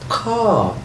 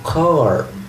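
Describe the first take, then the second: First: The final r is dropped, British style. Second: The final r is pronounced, American style.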